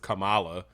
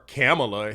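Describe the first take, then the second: First: The name does not start like 'camel'. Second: The name starts like the word 'camel'. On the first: The speaker calls it right. "the main one that most people say" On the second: The speaker calls it wrong. "like she's a camel"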